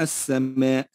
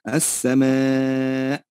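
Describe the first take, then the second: First: The final vowel is kept normal length. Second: The final vowel is stretched extra long. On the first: "لو لم نمدها هنا ... بدون مد فقلنا" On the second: "فيها مد فرعي تمد بمقدار أربع أو خمس حركات"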